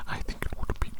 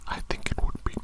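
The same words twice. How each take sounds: The two takes are said the same way.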